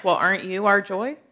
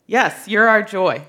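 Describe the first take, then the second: First: "aren't you our joy" asked with a questioning lilt. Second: "Yes" hit loud, then "you're our joy" as a statement; emphatic answer. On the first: Preacher voicing verse nineteen to believers, as a question. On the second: Preacher answering the verse's question for believers, emphatic affirmation. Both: Acted. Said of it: "saying it as a question".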